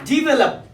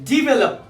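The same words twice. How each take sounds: The two takes are said the same way.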